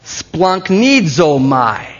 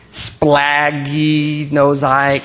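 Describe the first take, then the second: First: "splanchnizomai" very slow, stretched syllables, rising on the middle then falling; pronunciation demo. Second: "Splaggy, nosai" sounded out slowly on a level pitch; halting pronunciation attempt. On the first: Preacher showing a congregation the Greek, drawn-out pronunciation. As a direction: stretch out "splanchnizomai" as one smooth word. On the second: Preacher trying a hard Greek word, halting attempt. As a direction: feel through "Splaggy, nosai" in drawn-out pieces. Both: Shown as a demonstration. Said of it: "Who can pronounce that word?".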